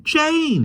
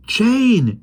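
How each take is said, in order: First: Even higher call of her name; crying out louder. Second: High call of her name; crying out. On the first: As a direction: call out again, more urgent. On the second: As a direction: call out to Jane. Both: Acted. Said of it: "he cried".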